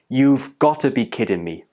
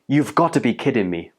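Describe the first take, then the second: First: The phrase is said at a slower pace. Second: The phrase is said at a faster pace. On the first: "it's pronounced like this" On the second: "A bit more quickly"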